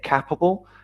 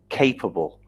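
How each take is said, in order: First: The first vowel is not an A sound. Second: The first vowel is an A sound. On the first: The speaker calls it wrong. "you're pronouncing it capable" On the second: The speaker calls it right. "it's pronounced capable. So it's the A sound"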